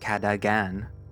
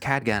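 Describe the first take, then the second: First: The name is said with three syllables. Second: The name is said with two syllables. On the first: The speaker calls it wrong. "I don't know why I'm pronouncing it Cadagan" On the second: The speaker calls it right. "I'm pretty sure it's Cadgan"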